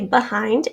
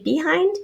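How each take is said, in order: First: The first vowel is a weak schwa. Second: The first vowel is a long E. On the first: "Some people say behind, and that would be a schwa spelled with an E" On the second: "Here is the long E sound. ... I say behind"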